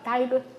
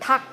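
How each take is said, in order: First: The word is split into two syllables. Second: The word is said as a single syllable. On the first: The speaker calls it wrong. "이렇게 발음 안 하잖아요" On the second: The speaker calls it right. "닭 이렇게 얘기를 하니까 하나밖에 못 온다"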